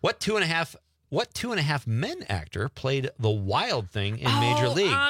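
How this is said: It is read in an American accent. "I'm gonna go with the American"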